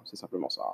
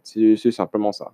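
First: Much softer, lower echo of the line; murmured echo. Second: Said in the usual way. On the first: Shown as a demonstration. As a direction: repeat it to yourself under your breath.

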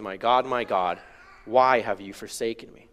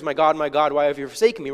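First: Subdued anguish. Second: Brisk, matter-of-fact read-through; glossed-over reading. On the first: Preacher quoting Jesus' powerful words, in subdued anguish. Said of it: "pain and anguish and suffering". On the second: Preacher showing how we read the words, glossing over the feeling. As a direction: read it quickly, skimming past the emotion. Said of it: "we just gloss over the emotion". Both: Shown as a demonstration.

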